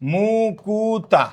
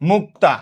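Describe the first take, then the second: First: An extra u vowel separates the k and t. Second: The k and t sounds are joined directly. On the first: "একটা রস্যুকার আসছে" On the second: "মুক্তা কয়ের সাথে এখানে কিছুই ছিল না"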